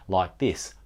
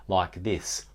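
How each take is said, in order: Both takes have the same delivery.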